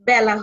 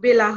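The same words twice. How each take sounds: First: The first vowel is an open a-like sound. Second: The first vowel is a plain e sound. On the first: The speaker calls it right. "বেলা হবে" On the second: The speaker calls it wrong. "বেলা হবে না"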